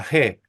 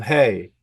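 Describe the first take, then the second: First: G said as "he", a pure e with no glide; correct letter name. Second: Hey with a diphthong, e gliding to i; American-teacher pronunciation. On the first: Teacher corrects US usage for students, G as "he" without glide. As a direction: say G as a short Spanish "je", no final i. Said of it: "pero es la G". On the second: Teacher quotes US Hebrew teachers, hey with an ey glide. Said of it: "Entonces ellos dicen hey". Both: Shown as a demonstration.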